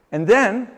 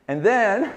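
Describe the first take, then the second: No difference in how they are said.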